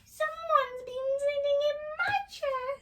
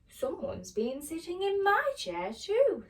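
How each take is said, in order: First: It is said in a small, squeaky voice. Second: It is said in a medium-sized voice.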